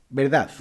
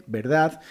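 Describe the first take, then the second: No difference in how they are said.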